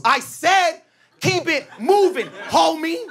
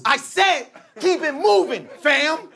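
First: Menacing dude. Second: High mock threat; menacing dude. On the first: Retold or imitated. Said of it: "Dude goes". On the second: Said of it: "he goes". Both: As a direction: lean on every word, menacing.

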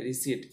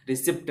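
First: "रिसीट" with silent p and long ee; right-way demo of "रिसीट", p left silent; correct pronunciation. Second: "रिसिप्ट" with the p sounded before the t; wrong-way demo of "रिसिप्ट", p pronounced; mistaken pronunciation. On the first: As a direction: say "रिसीट" ending in eet, no p. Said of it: "रिसीट बोलते हैं". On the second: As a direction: say "रिसिप्ट" with an audible p. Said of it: "रिसिप्ट नहीं". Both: Shown as a demonstration.

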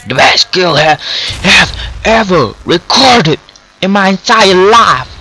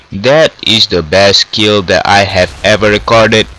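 First: High, emphatic triumphant proclamation; thrilled boasting. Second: Said in the usual way. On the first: Real, not acted. Player celebrating the best kill, thrilled boasting. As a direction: proclaim it word by word, overjoyed.

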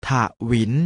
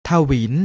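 First: ถะหวิน split into ถะ and หวิน; short ถะ, tiny gap, then หวิน; syllable by syllable. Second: Said in the usual way. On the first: Shown as a demonstration. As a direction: sound out ถะหวิน in two beats. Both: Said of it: "อ่านว่า".

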